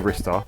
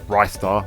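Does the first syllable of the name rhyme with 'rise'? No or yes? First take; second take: no; yes. First: The first syllable does not sound like 'rise'. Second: The first syllable sounds like 'rise'. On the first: "I say Ristar" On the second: "others say it's Ristar, like Rising Star"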